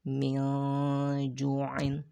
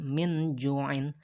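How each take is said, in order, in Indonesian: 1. Nun dibaca samar dan disembunyikan sebelum jim. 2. Nun dibaca jelas dan penuh sebagai nun. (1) "maka diikhfakan. Ikhfa itu artinya adalah samar" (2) "bukan min ju'in"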